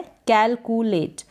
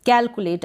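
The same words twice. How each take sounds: First: "कैलकुलेट" slowly split as कैल-कु-लेट; broken into syllables. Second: Said in the usual way. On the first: Shown as a demonstration. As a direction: sound out "कैलकुलेट" in three slow pieces. ("कैलकुलेट" को धीरे, टुकड़ों में तोड़कर) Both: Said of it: "उसको break करेंगे".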